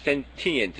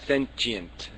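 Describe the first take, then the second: First: The middle consonant is a plain 't' sound. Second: The middle consonant is a 'ch' sound. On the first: The speaker calls it right. "sentient makes much more sense to me" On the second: The speaker calls it wrong. "yeah, chi"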